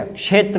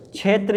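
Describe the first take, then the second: First: क्षेत्र starting with k plus sh, kshetra; correct pronunciation. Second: क्षेत्र starting with chh, chhetra; wrong pronunciation. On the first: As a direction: sound the ksh in क्षेत्र. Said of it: "क्षेत्र होता है". (क्षेत्र में क्ष साफ़) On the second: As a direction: replace ksh with chh in क्षेत्र. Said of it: "ये नहीं होता है". (क्षेत्र को छेत्र जैसा) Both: Shown as a demonstration.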